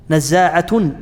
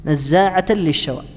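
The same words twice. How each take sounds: First: نزاعة said nazzāʿatun, final damma with nunation; ending -tun with damma. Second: نزاعة said nazzāʿatan, final fatha with nunation; ending -tan with fatha. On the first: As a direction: end نزاعة on a clear -un. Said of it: "بالضم". (نزاعة بالضم مع التنوين: نزّاعةٌ) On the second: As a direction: end نزاعة on a clear -an. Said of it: "بالنصب". (نزاعة بالنصب مع التنوين: نزّاعةً) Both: Shown as a demonstration.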